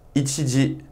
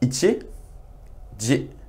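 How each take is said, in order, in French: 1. Les mots sont prononcés plus vite. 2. Les mots sont prononcés plus lentement. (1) "je vais un peu plus vite cette fois-ci" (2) "prononcez après moi"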